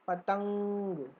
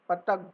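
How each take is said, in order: First: It is said normally with air through the nose. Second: It is said with the nose pinched shut. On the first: The speaker calls it right. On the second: The speaker calls it wrong.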